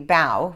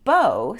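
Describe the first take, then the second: First: The vowel rhymes with cow. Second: The vowel rhymes with go. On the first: It means bending forward to an audience. "which would make sense, take a bow" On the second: It means a tied ribbon. "since it's spelled the same way"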